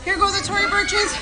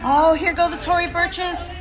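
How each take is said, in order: First: Higher excited cry. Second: High, giddy cry as the shoes fly; excited yelp. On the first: On the slide she repeats it higher and giddier as her shoes fly off. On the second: Sliding down in a dress, she calls out excitedly as her shoes fly off. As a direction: laugh it off mid-slide. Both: Real, not acted.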